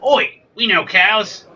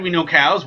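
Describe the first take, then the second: First: Slow, raised mock Australian voice; badly faked Australian, drawn out; bad Australian accent. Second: Said in the usual way. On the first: Dairy farmers who know cows, hammed-up Australian accent. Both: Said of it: "I can't do an Australian accent".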